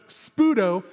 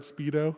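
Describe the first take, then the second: First: The word is said with an 'oo' vowel, 'Spudo'. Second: The word is said like the swimwear brand 'Speedo'. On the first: The speaker calls it right. "Nope, Spudo" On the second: The speaker calls it wrong. "First time I read it, I read Speedo"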